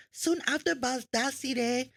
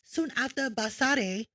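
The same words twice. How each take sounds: First: Baldassare tripped over, with muddled syllables; awkward, mistaken attempt at Baldassare; stumbled pronunciation. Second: Baldassare retried with cleaner syllables; careful second go at Baldassare; corrected pronunciation. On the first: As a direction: slowly fumble the name Baldassare. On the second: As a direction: say Baldassare carefully after a slip. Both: Real, not acted. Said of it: "it's hard for me to pronounce".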